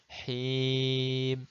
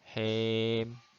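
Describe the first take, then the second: First: The vowel is a full, clear i. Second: The vowel falls between a and i. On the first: The speaker calls it right. "benar-benar kasroh him" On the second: The speaker calls it wrong. "itu seperti imalah him"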